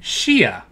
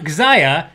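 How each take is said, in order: First: The word begins with an sh sound. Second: The word does not begin with sh. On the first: The speaker calls it right. "it's a sh sound" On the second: The speaker calls it wrong. "it's not Xia"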